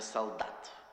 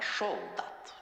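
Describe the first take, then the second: First: The first sound is a plain, clear s. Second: The first sound is a lisped sh. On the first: "Не солдат" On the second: "шепелявит или пришепетывает"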